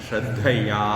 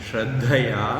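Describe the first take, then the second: No difference in how they are said.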